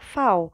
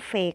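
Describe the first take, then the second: First: The letter name is said the German way. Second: The letter name is said the Indonesian way. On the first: The speaker calls it right. "Kalian bacanya adalah V" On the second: The speaker calls it wrong. "bukan V, karena mereka nggak akan ngerti V"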